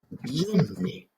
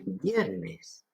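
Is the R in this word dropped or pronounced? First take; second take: dropped; pronounced. First: The R is dropped and the N is doubled. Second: The R is pronounced and the N is single. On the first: This is how people from Seville say it. "el sevillano dice viernes" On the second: This is the standard form. "donde tendría que decir viernes"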